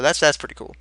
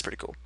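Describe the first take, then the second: First: Said in the usual way. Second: Breathy whisper to himself; a soft whispered echo of the words; whispered aside. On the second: Real, not acted. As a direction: repeat it under your breath as a whisper. Repeats the phrase, second time whispered.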